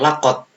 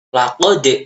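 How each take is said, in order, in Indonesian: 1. Konsonan akhir berakhir datar, tanpa pantulan. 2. Konsonan akhir berakhir dengan lepasan yang memantul. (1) "bukan lakot. Salah kalau lakot ya" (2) "Kalau ada sukun ini bacanya memantul. Contohnya laqad ya"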